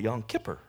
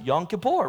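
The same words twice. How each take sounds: First: Kippur is stressed on its first syllable. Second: Kippur is stressed on its second syllable. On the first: "He calls it Yom Kippur. Sounds like Skipper" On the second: "I used to pronounce it Yom Kippur"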